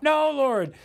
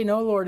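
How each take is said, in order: First: Higher, drawn-out mock no; whiny refusal. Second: Said in the usual way. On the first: Believer refusing God's call, higher mock whine. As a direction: balk at God like a sulky child. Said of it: "he's not gonna let us say". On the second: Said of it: "How can we say".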